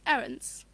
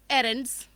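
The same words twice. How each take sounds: First: It is said with a natural English accent. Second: It is said with a Bengali accent. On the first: "a more natural English accent" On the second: "the way we learn to speak with our Bengali accent"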